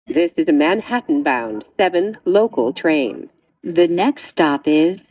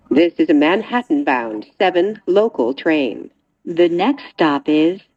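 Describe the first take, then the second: No difference in how they are said.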